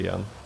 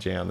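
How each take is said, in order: First: The name is said with a Dutch pronunciation. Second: The name is said with an English pronunciation. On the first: "in Dutch, right? I would say Jan" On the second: "that's English"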